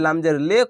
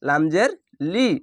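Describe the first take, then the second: First: The final vowel sounds like 'eh'. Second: The final vowel sounds like 'ee'. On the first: The speaker calls it wrong. "অনেক সবাই লামজের লে কহে দেয়, তো এরকম হবে না" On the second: The speaker calls it right. "বাংলায় ঋষির মতন উচ্চারণ হবে"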